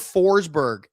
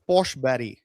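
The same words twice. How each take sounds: First: The name is said the usual English way. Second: The name is said the Swedish way. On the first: The speaker calls it wrong. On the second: The speaker calls it right.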